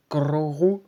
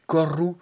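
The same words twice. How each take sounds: First: "Gororu", drawn out slowly; slow, exaggerated "Gororu"; trying a pronunciation. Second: "Goru" in two syllables, tentatively; short "Goru", lilting up at the end; trying a pronunciation. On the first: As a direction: stretch "Gororu" over an extra rolled syllable. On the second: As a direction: try out "Goru" as one option. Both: Shown as a demonstration. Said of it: "je sais pas si ça se dit".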